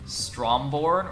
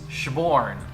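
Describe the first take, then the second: First: The name is said with all its spelled sounds. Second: The name is said in a shortened, squeezed form. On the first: This is how it looks from the spelling. The speaker calls it wrong. "the way it was spelled, it was like" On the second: This is how it is actually pronounced. The speaker calls it right. "Google Translate's like it's"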